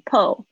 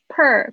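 First: The vowel is an 'o' sound. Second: The vowel is an 'er' sound. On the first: The speaker calls it wrong. "不要念成po" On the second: The speaker calls it right. "per 不要念成po"

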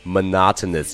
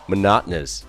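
First: The middle t sound is clearly pronounced. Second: The middle t sound is dropped. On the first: The speaker calls it wrong. "这个词并不会真正的读成monotonous 这样子" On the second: The speaker calls it right. "把中间的这个t 的清辅音给直接去掉了，就读成了monotonous"

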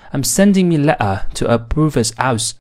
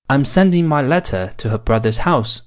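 First: Mancunian accent with dropped sounds and 'me'. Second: Standard accent with full sounds and 'my'.

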